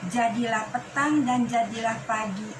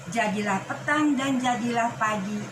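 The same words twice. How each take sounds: No difference in how they are said.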